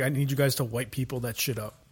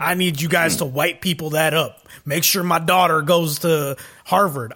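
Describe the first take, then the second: First: Softer, half-hearted delivery of a movie line; zero conviction. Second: Will Smith. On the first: Retold or imitated. Host mocking an actor's cringey movie line, no conviction. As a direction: say it as if you hate the line. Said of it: "zero conviction in what he was saying". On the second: Acted. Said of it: "giving Will Smith a redneck accent".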